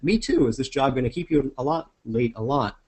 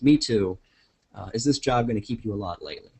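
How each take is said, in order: First: "Me too" runs straight into the question. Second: There is a pause after "me too".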